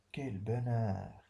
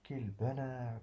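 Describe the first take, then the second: First: Slow, savoured cry of joy, lower pitch; drawn-out, delighted sigh of joy; joyful exclamation. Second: Savoured, gentle delight; joyful exclamation. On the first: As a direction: taste the happiness in each word. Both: Shown as a demonstration. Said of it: "on exprime un sentiment".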